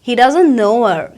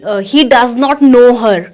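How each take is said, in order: First: The words are contracted and linked together. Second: Every word is said fully and separately. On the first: The speaker calls it right. "वो कैसे कहेंगे" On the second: The speaker calls it wrong. "वो ऐसे नहीं कहेंगे"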